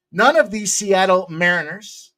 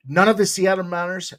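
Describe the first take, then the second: First: Said in the usual way. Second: "Mariners" slipped into an odd accent, said like "Maunerz"; a stray, unplaced accent on "None of the Seattle Mariners"; accidental weird accent on "Mariners". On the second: Real, not acted. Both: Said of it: "that was a weird accent".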